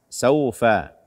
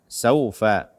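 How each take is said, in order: No difference in how they are said.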